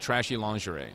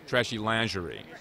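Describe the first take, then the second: First: Lingerie is said the common American way. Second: Lingerie is said the original French way. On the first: The speaker calls it wrong. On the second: The speaker calls it right.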